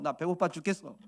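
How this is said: It is said in a pushy, demanding tone.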